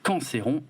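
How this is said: The name is said with a French pronunciation.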